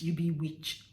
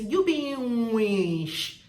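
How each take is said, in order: First: Said in the usual way. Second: "witch" as a long, loud "nweeesh"; Warri pronunciation. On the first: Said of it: "not witch". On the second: Shown as a demonstration. Showing how Warri people say it, loud and stretched. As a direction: draw "You be witch" right out, ending in sh. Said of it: "this is how they pronounce it".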